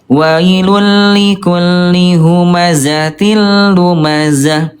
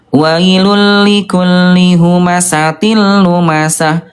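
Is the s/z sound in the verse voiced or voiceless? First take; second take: voiced; voiceless. First: The sibilants are voiced, without breathy air. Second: The sibilants are voiceless, with audible breath. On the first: The speaker calls it right. "jawaban yang betul adalah yang ke yang kedua" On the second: The speaker calls it wrong. "yang ke satu"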